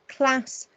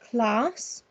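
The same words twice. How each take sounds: First: The vowel is a short flat A sound. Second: The vowel is a long open 'ah' sound. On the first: "I just read them with using a short A" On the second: "a long A that sounds like the phoneme R"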